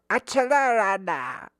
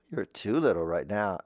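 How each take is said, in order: First: Put-on high, loud little toddler. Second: Said in the usual way. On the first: Shown as a demonstration. Voice teacher showing a too-little kid, toddler voice. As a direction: squeal it in baby talk. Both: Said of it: "like a toddler".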